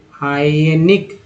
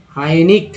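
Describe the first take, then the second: First: हाइनिक said very slowly, rising at the end; slow model take. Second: Said in the usual way. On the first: Shown as a demonstration. Teacher repeating the word slowly for learners. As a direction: spell out हाइनिक slowly by ear.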